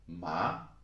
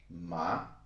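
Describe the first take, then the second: No difference in how they are said.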